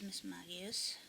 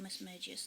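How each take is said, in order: First: Magius said MAG-ee-us, with hard G; hard-G pronunciation. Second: Magius said MAY-jus, with soft G; soft-G pronunciation. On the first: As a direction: say "Magius" with a G as in "bag". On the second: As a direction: say "Magius" with a J sound, as in "major". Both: Shown as a demonstration. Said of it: "depending on how you wanna pronounce it".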